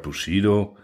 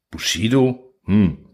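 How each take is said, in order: First: Said in the usual way. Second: A hint of a distracted lion, murmured; lightly voiced lion, half listening; lion muttering over his cards, distracted; absent-minded lion's grumble. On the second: A narrator's reading. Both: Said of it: "brummt der Löwe zerstreut".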